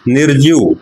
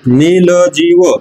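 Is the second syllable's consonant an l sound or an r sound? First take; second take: r sound; l sound. First: The word is said with an r sound. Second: The word is said with an l sound. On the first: An adult says the word. The speaker calls it right. "आपल्या भाषेतला निर्जीव" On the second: A small child says the word. The speaker calls it wrong. "तिच्या भाषेतला"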